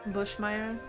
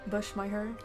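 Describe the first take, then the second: No difference in how they are said.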